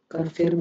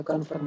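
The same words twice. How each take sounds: First: कन्फर्म with an i-like second vowel, "con-firm"; wrong pronunciation. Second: कन्फर्म with a neutral "uh" in the second syllable; correct pronunciation. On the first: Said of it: "कन्फर्म नहीं होता". (कन्फर्म को "कन्फिर्म" बोलकर) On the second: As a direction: say कन्फर्म as "kun-furm". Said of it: "कन्फर्म होता है". (कन्फर्म में "फर्म" को "अ" से बोलकर) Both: Shown as a demonstration.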